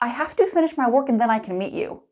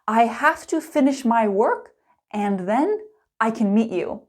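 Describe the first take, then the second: First: It is spoken fast with 'and' reduced to n. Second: It is spoken slowly with every word clear. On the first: "fast and natural" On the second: "Let's start slow and clear"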